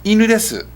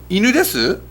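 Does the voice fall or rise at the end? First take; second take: fall; rise. First: The voice falls at the end. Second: The voice rises at the end. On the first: It states that it is a dog. "It's a dog" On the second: It asks whether it is a dog. "Is it a dog?"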